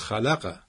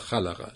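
First: The stress is on a later syllable. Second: The stress is on the first syllable. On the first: The speaker calls it wrong. "چون نمیگیم خلقه" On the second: The speaker calls it right. "روی خا قرار میشه خلقه"

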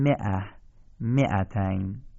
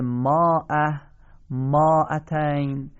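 First: The first syllables have a short 'i' vowel. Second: The first syllables have a long 'a' vowel. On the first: It follows the correct reading. "ولی ما میخونیم مئه مئتین" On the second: It follows the written spelling. "نوشته میشه ماه ماعتین"

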